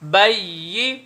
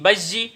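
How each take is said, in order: First: The doubled middle sound is a soft 'y'. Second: The doubled middle sound is a hard 'j'. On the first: The speaker calls it right. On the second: The speaker calls it wrong.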